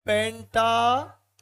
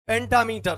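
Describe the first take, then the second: First: pentameter drawn out in two parts, penta, then metre; slow, split word. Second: Said in the usual way. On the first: Shown as a demonstration. Teacher repeating the term for students, pentameter slow and split. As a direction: stretch pentameter slowly, pausing before metre. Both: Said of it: "क्या कहलाएगा?".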